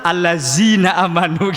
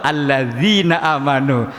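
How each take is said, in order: First: Betawi accent, "Allazina" with z instead of dh; Betawi-style reading, "Allazina" with a plain z. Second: Slow, "Allazina" with a clear dh sound; careful correct reading, "Allazina" with dh; correct makhraj. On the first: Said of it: "orang Jakarta Betai". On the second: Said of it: "belajar makhraj". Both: Shown as a demonstration.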